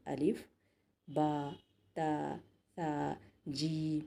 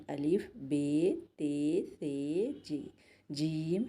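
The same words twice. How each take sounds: First: با، تا، ثا said the Arabic way with a long aa ending; Arabic letter names. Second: الف، بے، تے، ثے said the Urdu way with an e ending, slow; Urdu letter names. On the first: Teacher showing students the Arabic way of saying the letters, slow. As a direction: call out با، تا، ثا with an open aa sound. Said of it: "مگر عربی میں آ کی sound آئے گی اس میں". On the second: Teacher showing students the Urdu way of saying the letters, slow. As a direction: spell out بے، تے، ثے the Urdu way, slowly. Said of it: "مگر اردو میں اس کو ایسا پڑھتے ہیں". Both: Shown as a demonstration.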